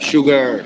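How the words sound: It has a hard, strongly pronounced r sound. "शुगर ऐसे बोलते हैं"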